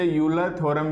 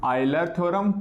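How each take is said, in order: First: The name begins with a 'you' sound. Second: The name begins with an 'eye' sound. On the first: "कुछ इसे यूलर theorem भी बोल देते हैं"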